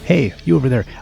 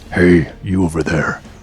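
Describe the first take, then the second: First: It is said in a cute squeaky voice. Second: It is said in a normal, unsqueaky voice.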